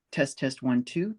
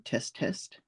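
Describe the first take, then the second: First: Said in the usual way. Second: Breathy test, no voice; quiet unvoiced check; whispered mic test. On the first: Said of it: "Yes, of course". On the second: Shown as a demonstration.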